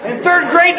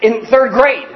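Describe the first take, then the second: First: Blurted out high through a laugh. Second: Said in the usual way. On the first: Real, not acted. Telling the church about the shaving third-grader, laughing. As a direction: laugh as you repeat it, much higher.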